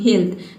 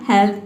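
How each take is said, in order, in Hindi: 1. स्वर को लंबे ee की तरह बोला जाता है। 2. स्वर को छोटे eh की तरह बोला जाता है। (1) "तीसरा प्रोनाउंसिएशन क्या है ई" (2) "पहले आपने प्रोनाउंस किया हेल्थ"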